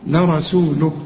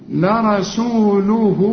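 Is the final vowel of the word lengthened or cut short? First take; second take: cut short; lengthened. First: The final ha is cut short with a stop. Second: The final ha is lengthened and flows on. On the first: The reciter stops on the word. "اذا وقفت هتقول لرسوله، مفيش هنا مد" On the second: The word is joined to what follows. "علشان تمد الهاء حركتين عند الوصل"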